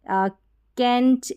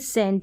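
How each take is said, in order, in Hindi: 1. शब्द K ध्वनि से शुरू होता है। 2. शब्द S ध्वनि से शुरू होता है। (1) "कैंट ऐसे नहीं बोलेंगे" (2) "यानी सी का उच्चारण स है"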